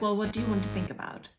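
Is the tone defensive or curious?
defensive. The tone sounds defensive and abrasive.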